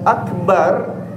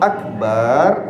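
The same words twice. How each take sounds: First: The second syllable has a short vowel. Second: The second syllable has a lengthened vowel. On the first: It means most great. The speaker calls it right. "baknya pendek" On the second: It means a bucket. The speaker calls it wrong. "artinya ember"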